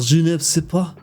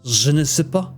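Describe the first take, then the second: Both takes have the same delivery.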